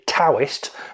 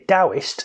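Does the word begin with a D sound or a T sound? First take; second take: T sound; D sound. First: The word starts with a T sound. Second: The word starts with a D sound. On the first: "if you see the word T A O" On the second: "and D A O"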